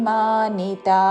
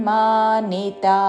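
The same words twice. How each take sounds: Both takes have the same delivery.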